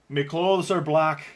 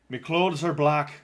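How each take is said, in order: Both takes have the same delivery.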